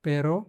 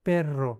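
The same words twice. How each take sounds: First: पेरो with one quick tapped r; पेरो said short and smooth; single r. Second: पेर रो split with a trilled r; पेर रो, pause then roll the r; rolled double r. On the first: ("पेरो" एक हल्के र के साथ) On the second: ("पेर रो" घुमाकर लंबा र) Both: Shown as a demonstration. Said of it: "इस पे ध्यान देना है".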